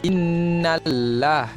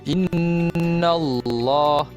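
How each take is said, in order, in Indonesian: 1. L dalam Allah itu ringan dan tipis. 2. L dalam Allah itu berat dan tebal. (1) "kalau baca macam ni salah. Lam nipis tak nak" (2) "Yang betulnya mesti tebal"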